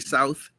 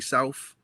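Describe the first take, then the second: First: The word ends with a 'th' sound. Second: The word ends with an 'f' sound. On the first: This is how people elsewhere say it. "we don't say South" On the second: This is how people in DC say it. "our T H's are F's"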